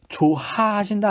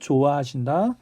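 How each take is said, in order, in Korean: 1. 첫 음절 뒤의 h 소리는 발음합니다. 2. 첫 음절 뒤의 h 소리는 탈락합니다.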